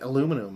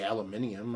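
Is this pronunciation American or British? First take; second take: American; British. First: It is said with the American pronunciation. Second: It is said with the British pronunciation. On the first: It is the speaker's own natural way of saying it. "if I said aluminum" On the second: It would feel inauthentic for the speaker to say it. "I wouldn't use weird English slang"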